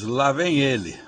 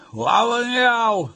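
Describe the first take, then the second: First: Said in the usual way. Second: "lá vem El", with "El" long, high and clipped; slow mock European Portuguese, "ele" cut to "El". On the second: Shown as a demonstration. Mimicking how Portugal says it, mock accent. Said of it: "O ele lá é El".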